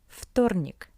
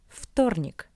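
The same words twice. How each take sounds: First: The first consonant is a voiceless 'f' sound. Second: The same.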